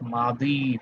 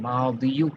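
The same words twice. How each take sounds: First: "मादी" ending on a long -ii, no u; bare long-i ending. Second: "मादियु" with the final -yu sounded; rejected -yu ending. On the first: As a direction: stop "मादी" on the drawn-out i. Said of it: "सिर्फ मादी पढ़ रहे हैं". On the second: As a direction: add a short u after the i in "मादियु". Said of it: "नहीं पढ़ रहे हैं". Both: Shown as a demonstration.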